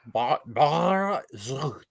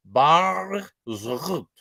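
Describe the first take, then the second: First: Bar, Bar Zrut very slowly, each part spelled out; slow corrected retry; careful retry of the name. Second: Bar Zrut in a quick first guess, falling at the end; first attempt at a foreign name; first try at the name. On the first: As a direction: sound out Bar Zrut slowly, trying to get it right. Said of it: "I feel like this is the best you'll get". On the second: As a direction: take a stab at the Israeli name Bar Zrut. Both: Shown as a demonstration.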